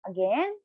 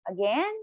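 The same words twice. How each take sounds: Both takes have the same delivery.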